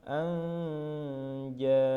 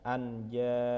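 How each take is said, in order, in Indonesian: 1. Bunyi n melebur menjadi bunyi ng sengau. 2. Bunyi n dilafalkan sebagai n yang jelas. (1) "Pada lafal anja" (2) "bukan anja"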